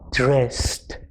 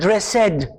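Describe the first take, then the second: First: The ending is a short t with no extra syllable. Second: The ending is said as a separate extra syllable. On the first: The speaker calls it right. "The word is dressed" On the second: The speaker calls it wrong. "It's not dressed"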